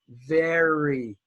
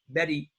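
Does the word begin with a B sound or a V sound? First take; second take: V sound; B sound. First: The word starts with a clear V sound. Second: The word starts with a B-like sound. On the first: The speaker calls it right. "We say very" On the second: The speaker calls it wrong. "Don't say Betty"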